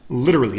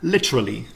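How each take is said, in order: First: The word is said in an American accent. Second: The word is said in a British accent.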